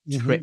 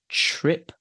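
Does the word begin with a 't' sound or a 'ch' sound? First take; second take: t; ch. First: The word begins with a plain 't' sound. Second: The word begins with a 'ch' sound. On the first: The speaker calls it wrong. "not trip" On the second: The speaker calls it right. "So I would say ch as in chin"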